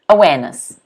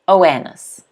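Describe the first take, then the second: First: The R after the first vowel is silent. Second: The R after the first vowel is silent.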